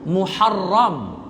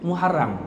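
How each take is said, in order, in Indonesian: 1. Diucapkan dengan lafal Arab. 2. Diucapkan dengan lafal Melayu setempat. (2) "Kita sebut mengikut lorak kemelayuan kita"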